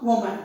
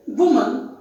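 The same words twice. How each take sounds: First: "woman" as WO-mun, with an O sound; wrong pronunciation. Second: "woman" as WUU-mun, reduced ending; correct pronunciation. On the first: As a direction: say the first vowel of "woman" as spelt, O. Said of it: "not woman". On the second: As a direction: say "woman" with short U and weak "mun". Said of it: "So the pronunciation is woman". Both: Shown as a demonstration.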